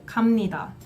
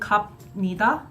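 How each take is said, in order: First: The consonant before 'ni' is an m sound. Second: The consonant before 'ni' is a b sound. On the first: The speaker calls it right. "we would just say" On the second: The speaker calls it wrong. "which is kind of hard to say, feels awkward"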